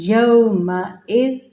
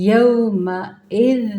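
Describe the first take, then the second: The two takes are said the same way.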